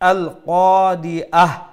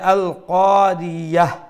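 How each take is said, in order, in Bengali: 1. শেষের স্বরের আগে glottal stop ধ্বনি আসে। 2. শেষের স্বরের আগে y ধ্বনি আসে। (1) "হামজা দিয়া পড়লাম" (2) "ইয়া দিয়া ইয়া হা জবর ইয়াহ পড়লাম"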